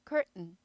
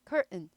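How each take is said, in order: The two takes are said the same way.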